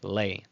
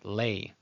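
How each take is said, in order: First: The vowel glides like 'ay', a diphthong. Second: The same.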